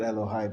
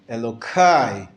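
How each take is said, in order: First: The middle consonant is an h sound. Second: The middle consonant is a k sound. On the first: God's name is said in its proper form. "not Elohai" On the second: God's name is avoided out of reverence. "the aleph into a k sound"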